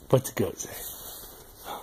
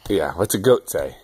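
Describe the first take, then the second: First: Whisper. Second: Said in the usual way. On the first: Real, not acted. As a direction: breathe the question softly and slowly. Repeats question to baby softly.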